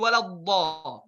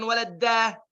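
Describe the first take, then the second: First: The d sound is heavy and deep. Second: The d sound is light, like plain d. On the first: The speaker calls it right. "Harful dad tebal" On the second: The speaker calls it wrong. "harful dad ditipiskan... Ini dal"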